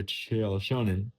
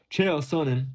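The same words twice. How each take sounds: First: "Sonnen" said with a sh sound at the start; Sonnen mispronounced as Shonen. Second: Said in the usual way. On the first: Real, not acted. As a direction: say "Sonnen" as SHOW-nen. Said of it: "I'm gonna call him a Shonen". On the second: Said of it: "Sonnen, I'm gonna call him a Shonen".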